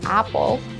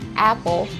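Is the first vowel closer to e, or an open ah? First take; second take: open ah; closer to e. First: The first vowel is an open ah sound. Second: The first vowel is mixed toward an e sound. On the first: The speaker calls it wrong. "we don't say apple" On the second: The speaker calls it right. "the sound of the letter A, which is kind of mixed of a bit of sound of the letter E"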